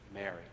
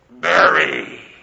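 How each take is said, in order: First: It is said in a natural, ordinary voice. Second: It is said in a put-on, grand, godlike voice. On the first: The caller is known personally and intimately. The speaker calls it right. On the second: The caller is a distant, imposing authority. The speaker calls it wrong.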